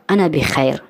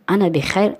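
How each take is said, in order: First: Said in the usual way. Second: انا بخیر said with the voice rising at the end; rising tune. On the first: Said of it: "یعنی که حمد الله را که". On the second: Shown as a demonstration. Teacher repeats انا بخیر to students, rising at the end.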